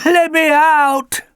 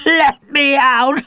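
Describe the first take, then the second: First: High, louder, slow pleading dog voice; barking dog. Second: High, louder, slow rising plea; begging dog. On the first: Alfie begs from the locked van, high slow dog voice. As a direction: bark it out as a desperate dog. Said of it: "barked Alfie". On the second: Alfie begs again from the van, high slow dog plea. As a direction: beg through the door like a trapped dog. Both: A narrator's reading.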